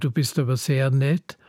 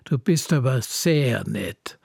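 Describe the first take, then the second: First: It sounds sincere and friendly. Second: It sounds sarcastic, meaning the opposite.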